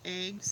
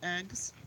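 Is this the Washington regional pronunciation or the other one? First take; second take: Washington; other. First: The word has the Washington regional pronunciation. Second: The word has the other, non-regional pronunciation. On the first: "Washingtonians usually say eggs" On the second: "instead of eggs"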